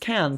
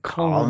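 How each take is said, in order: First: The vowel sounds like the one in cat. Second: The vowel sounds like the one in father. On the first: The speaker calls it right. "can is pronounced can" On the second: The speaker calls it wrong. "People think it's pronounced con"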